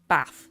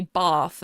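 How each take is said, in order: First: Bath with a short, flat "a" as in cat. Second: Bath with a long, open "ah" as in father. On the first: Streamer showing how others in Britain say it, short A in Bath. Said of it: "difference in the A sound". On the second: Streamer showing viewers their own southern vowel, long A in Bath. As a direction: say Bath southern English, like "bahth". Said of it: "for example, I would say". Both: Shown as a demonstration.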